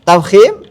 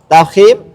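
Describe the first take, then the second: The two takes are said the same way.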